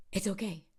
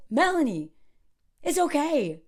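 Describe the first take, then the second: First: Gently voiced, retold mentor's calm; calm reassurance. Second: Higher, insistent retold reassurance; mildly exasperated mock scolding; firm reassurance. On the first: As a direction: quietly settle an anxious friend. Mentor reassures, calmer second time. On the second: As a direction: cut through the worry, imitating a mentor. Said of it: "just gets yelled at".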